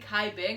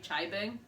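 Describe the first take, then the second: First: The name begins with a 'k' sound. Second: The name begins with a 'ch' sound. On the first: The speaker calls it wrong. "I was saying" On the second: The speaker calls it right. "I'm pretty sure it was supposed to be"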